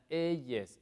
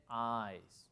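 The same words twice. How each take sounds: First: "eyes" misread by its spelling, in two syllables; wrong pronunciation. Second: "eyes" as one drawn-out syllable, like "ize"; correct pronunciation. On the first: Teacher warning students off a mistake, "eyes" mispronounced as two syllables. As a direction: say "eyes" as "eh-yes". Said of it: "no se pronuncia". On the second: Teacher correcting the mistake, "eyes" in one long syllable. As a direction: say "eyes" slowly, sounding like "ize". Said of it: "se dice". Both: Shown as a demonstration.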